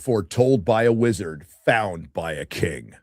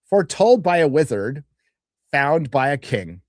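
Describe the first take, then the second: First: It is said in the speaker's own voice. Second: It is said in a put-on character voice.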